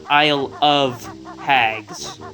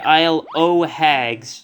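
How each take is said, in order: First: The word 'of' is said in full. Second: The word 'of' is reduced to 'o'. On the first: The speaker calls it wrong. "and not Isle of Hags" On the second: The speaker calls it right. "very important that you say Isle o' Hags"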